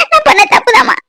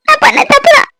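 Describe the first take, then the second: First: High pleading cry with stress on நான்; a daughter confesses her fault to her mother, crying; tearful confession. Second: The daughter repeats her confession to her mother, near wailing; rising tearful confession. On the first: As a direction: admit the fault through tears, leaning on நான். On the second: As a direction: repeat it, breaking higher with more despair. Repeats confession, more desperate. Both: Acted.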